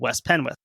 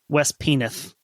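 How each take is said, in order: First: The w sound in the second word is pronounced. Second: The w sound in the second word is dropped.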